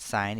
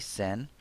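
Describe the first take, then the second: First: The vowel sounds like the one in 'pine'. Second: The vowel sounds like the one in 'pin'. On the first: The speaker calls it right. "We pronounce it sine even though we've written it as sin" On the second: The speaker calls it wrong. "make sure you don't say sin"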